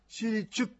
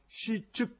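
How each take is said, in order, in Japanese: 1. 最初の音節のあとに、r の音が続きます。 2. 最初の音節は、r なしで短く切れます。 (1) "R の発音ですね、シリチュッというふうに言ってるか" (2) "シっていうふうにシの後にちっちゃいツの発音"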